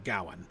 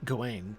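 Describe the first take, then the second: First: The stress is on the first syllable. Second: The stress is on the second syllable. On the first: This is the Middle English form of the name. "with stress on the first syllable" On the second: This is the French form of the name. "He's rhyming on the Gawain on the Wayne uh, syllable"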